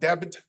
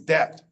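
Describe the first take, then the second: First: The b sound is pronounced in the word. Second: The b sound is left out entirely. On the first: The speaker calls it wrong. "That's not debit" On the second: The speaker calls it right. "The be is silent, it says nothing"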